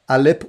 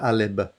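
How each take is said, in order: First: The word ends with a p sound. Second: The word ends with a b sound. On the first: The speaker calls it right. "Alip with a P" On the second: The speaker calls it wrong. "not Alib"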